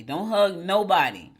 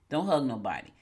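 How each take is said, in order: First: "Don't hug nobody" slower and louder, leaning on "hug"; mock-stern warning. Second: Said in the usual way. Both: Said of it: "I'm just kidding".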